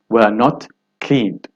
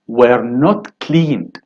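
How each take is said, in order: First: Said in the usual way. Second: Very slow, not stressed; slow answer. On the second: Shown as a demonstration. Teacher slowly giving the answer to the class. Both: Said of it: "of course".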